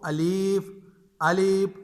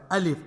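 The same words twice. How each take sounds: First: الف stretched long on its second syllable; drawn-out alif. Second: Said in the usual way. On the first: Shown as a demonstration. Teacher mimics a child's faulty reading, stretched. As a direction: wrongly lengthen the vowel in الف. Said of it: "یعنی شد کے ساتھ نہیں پڑھ". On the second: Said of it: "بچہ الف سے ہی پڑھ رہا ہے".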